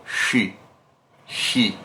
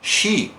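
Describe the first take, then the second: First: "She" said with the lips held still; stiff-lipped she. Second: "she" with the lips working, rounded. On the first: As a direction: say "She" without moving the lips. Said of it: "Se eu tento inibir o meu lábio". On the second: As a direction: push the lips forward on "she". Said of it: "não é o she". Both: Shown as a demonstration.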